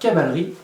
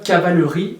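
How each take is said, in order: First: The middle e is dropped, giving three syllables. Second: All four syllables are clearly pronounced. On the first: The speaker calls it wrong. "et non pas cavalerie, sinon le vers manque d'une syllabe" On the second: The speaker calls it right. "on prononce bien cavalerie"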